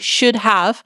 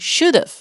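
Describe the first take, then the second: First: Both words are said fully and separately. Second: The words are contracted into one syllable. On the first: "quería combinar y no decir should have" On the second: "hubiese dicho should have"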